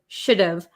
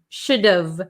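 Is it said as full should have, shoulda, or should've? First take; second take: should've; should've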